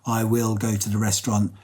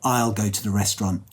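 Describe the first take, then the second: First: Both words 'I will' are said in full. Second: 'I will' is shortened to one syllable, 'I'll'. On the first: It sounds more formal. "instead of saying" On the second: It sounds more natural and less formal. "It's a little bit more natural and it's less formal"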